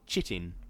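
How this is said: It is said with an Australian pronunciation. "which I think is like an Australian pronunciation"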